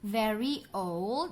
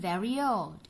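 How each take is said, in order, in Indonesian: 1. Kedua kata disambung tanpa bunyi y tambahan. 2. Bunyi y menghubungkan kedua kata itu.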